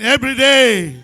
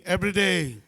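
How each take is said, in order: First: Louder call and response. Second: Said in the usual way. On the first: Shown as a demonstration. Pastor urging the congregation to repeat it louder. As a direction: really belt "Every day" so all join. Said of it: "Say it with me again". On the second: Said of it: "Say it with me".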